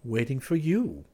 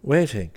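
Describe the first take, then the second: First: Slow, higher, a touch of unease; slightly troubled. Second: Higher, louder one-word answer in adoration; adoring. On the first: Clifford repeats his answer to Valentine, slightly troubled. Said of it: "slightly troubled". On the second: Clifford answers the woman opposite him, adoring. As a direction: answer her with open adoration. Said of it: "he replied in accents of adoration". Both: A narrator's reading.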